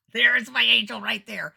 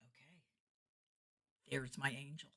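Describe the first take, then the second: First: Slow, high, loud exclamation with a laugh; loud jubilation. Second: Softer, understated murmur; quiet realization. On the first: Entertainer hailing her prayed-for helper, loudly jubilant. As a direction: proclaim it in comic triumph. Exultant repeat after spotting helper. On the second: Entertainer spotting her prayed-for helper, quietly realizing. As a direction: say it softly to yourself. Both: Retold or imitated.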